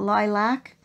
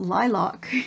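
First: It is said with an American pronunciation. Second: It is said with a Canadian pronunciation. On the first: "as you Americans call it lilac" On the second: "in Canada we call it lilac"

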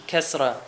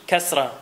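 Both takes have the same delivery.

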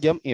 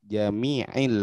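First: No vowel comes between the m and the stop. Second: A vowel i comes between the m and the stop. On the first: The speaker calls it wrong. "Bukan jam'i Pak" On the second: The speaker calls it right. "Jami'il wajhi"

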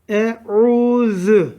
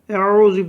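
First: The word is said clearly with a lisped z. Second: The word is said in a muddled, unclear way. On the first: The speaker calls it right. "Elif üstün e. ... Peltek z" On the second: The speaker calls it wrong. "Yapılan yanlış şu: e'ûzü böyle karışık bir şeyler söyleniyor"

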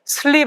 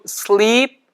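First: The vowel in the word is short. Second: The vowel in the word is long. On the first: The speaker calls it wrong. "이거 sleep 아니고" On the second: The speaker calls it right. "이거는 길게 발음하셔야 잠자다는 뜻이에요"

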